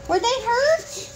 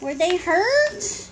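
First: Very high, slow question; exaggerated high-pitched concern; insistent concerned question. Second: Slow question, higher at the end; slow, raised-pitch question; concerned question. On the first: Repeats the question to child. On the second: Asks the child about the fall. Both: Real, not acted.

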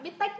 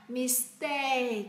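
First: "mistake" as a high, short Vietnamese-style "mít tếch"; mispronounced "mistake". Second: "mistake" drawn out with a long falling "ay"; careful pronunciation. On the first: Teacher showing learners a wrong reading, "mistake" high and cut short like "mít tếch". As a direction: say "mistake" with two short high syllables, stopped at the end. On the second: Teacher modelling for learners, "mistake" slowly with a long "ay" and final k. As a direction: stretch the second syllable of "mistake" down to a final k. Correct reading after the wrong one. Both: Shown as a demonstration.

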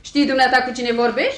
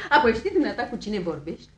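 First: Brisk, louder affronted question; offended rebuke; indignant challenge. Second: Brisk question through laughter; laughing, no longer affronted; amused challenge. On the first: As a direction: demand it sharply, rising at the end. Affronted woman challenges intruder. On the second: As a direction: ask it while still chuckling, rising at the end. Same challenge, now through laughter. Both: Acted.

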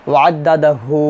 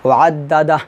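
First: ওয়াদ্দাদা হু with "hu" held long; stretched ending. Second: ওয়াদ্দাদা closed on a vowelless "h"; stopped ending. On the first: Teacher showing reading without a stop, lengthened hu. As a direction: draw out the final হু, no stop. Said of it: "আমি ওয়াকফ ধরি না". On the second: Teacher showing the stop at waqf, vowelless ending. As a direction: cut the final hu of ওয়াদ্দাদা to bare h. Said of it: "যদি ওয়াকফ ধরি". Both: Shown as a demonstration.

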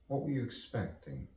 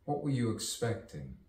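The two takes are said the same way.

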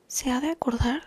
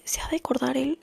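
First: Said in the usual way. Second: Whispered musing. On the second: Shown as a demonstration. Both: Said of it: "pienso así de".

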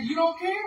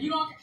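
First: "You don't care?" pitched much higher and louder, rising at the end; stunned disbelief. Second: Repeated disbelief. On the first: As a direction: act out a father's incredulous question. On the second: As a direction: say it once more, still shocked. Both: Retold or imitated. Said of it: "I said".

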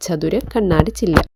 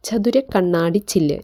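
First: Said in the usual way. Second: Slow, careful reading of ചതുര കണ്ണാടി ചില്ല്; slow dictation. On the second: Shown as a demonstration. Teacher reads the meaning slowly so students can write it. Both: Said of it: "pain എന്ന് വെച്ചാൽ".

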